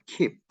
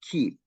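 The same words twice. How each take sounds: First: "keep" with an audible pop on the p; released final p. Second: "keep" ending on closed lips, no pop; unreleased final p. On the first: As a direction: let the last p of "keep" burst open. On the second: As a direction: hold back the last p of "keep". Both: Shown as a demonstration. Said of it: "we don't release".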